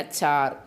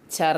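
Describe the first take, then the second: First: "ചാർ" with a long drawn aa; correct long vowel. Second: "ചർ" with a short clipped a, as the mistake; wrong short vowel. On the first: ("ചാർ" എന്ന് ദീർഘം നീട്ടി, ശരിയായ ഉച്ചാരണം) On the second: ("ചർ" എന്ന് ചെറിയ സ്വരത്തിൽ, തെറ്റായ ഉച്ചാരണം) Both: Shown as a demonstration. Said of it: "ചർ എന്നല്ല".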